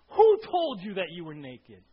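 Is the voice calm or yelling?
yelling. It is read in an angry yelling voice.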